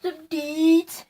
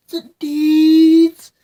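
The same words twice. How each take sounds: First: Said in the usual way. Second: Louder, stretched repeat; punched-up second take. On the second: Shown as a demonstration. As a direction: say it again, louder and drawn out.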